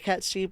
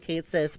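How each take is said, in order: First: The name is said as 'Cat Sheep'. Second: The name is said as 'Kate Sith'. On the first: This is the pronunciation the speaker personally prefers. "I will always prefer Cat Sheep" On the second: This is the official pronunciation. "it does pain me to say Kate Sith"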